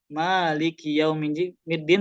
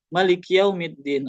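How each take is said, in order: First: The first vowel is held long. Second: The first vowel is cut short. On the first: The speaker calls it right. "harusnya dibaca panjang" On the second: The speaker calls it wrong. "tapi bacanya"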